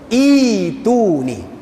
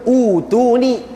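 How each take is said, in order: First: The word begins with an 'ee' vowel. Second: The word begins with an 'oo' vowel. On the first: The speaker calls it right. "kena baca ituni. Kena baca dengan dua harakat" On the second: The speaker calls it wrong. "jangan baca utuni"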